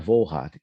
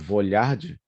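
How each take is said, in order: First: The middle consonant is a plain 'l' sound. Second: The middle consonant is a palatal 'lh' sound. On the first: The speaker calls it right. "não existe o som de L H em alemão, né? Então é Volhard" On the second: The speaker calls it wrong. "é muito comum as pessoas lerem Vollard por causa do L H"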